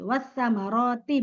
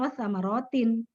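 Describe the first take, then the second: First: The word ends without an n sound. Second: The word ends with an added n sound. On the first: The speaker calls it right. "Wasamaroti bukan wasamarotin" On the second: The speaker calls it wrong. "bukan wasamarotin"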